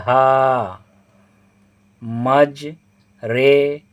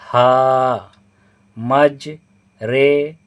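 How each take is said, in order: No difference in how they are said.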